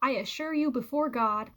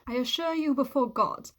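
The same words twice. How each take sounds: First: It is spoken in an American accent. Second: It is spoken in a put-on British accent. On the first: "Or in American" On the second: "I can only do a bad British accent"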